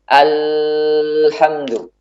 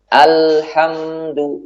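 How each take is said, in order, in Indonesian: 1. Bunyi L mengalir terus dalam waktu yang lama. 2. Bunyi L mengalir sebentar sebelum bunyi berikutnya. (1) "Tidak juga dibuat mengalir yang panjang" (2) "Suaranya harus mengalir namun sedikit"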